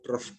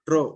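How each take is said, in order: First: The word ends with an f sound. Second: The word ends with no f sound. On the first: "Should pronounce truff truff" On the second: "That f sound you cannot hear. Tro only"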